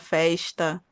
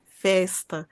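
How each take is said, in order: First: The s before t sounds like sh. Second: The s before t is a plain s. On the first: This is how people in the state capital speak. "aqui na capital baiana a gente fala mais chiado" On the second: This is how people in the south-central region speak. "É mais próximo do falar mineiro"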